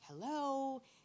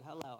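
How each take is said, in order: First: It is said with lots of energy. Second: It is said flatly, with little energy.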